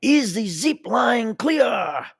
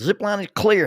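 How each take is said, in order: First: Put-on very high, slow French-accented shout; yelling French accent. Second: High, loud call back; yelled reply. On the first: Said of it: "And he yells". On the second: Retold or imitated. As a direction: shout it up from the ground. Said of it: "And they yelled".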